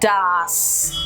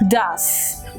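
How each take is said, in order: First: The vowel is an open 'ah' sound. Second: The vowel is a relaxed 'uh' sound. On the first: The speaker calls it wrong. "Don't make it ah" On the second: The speaker calls it right. "Make it uh"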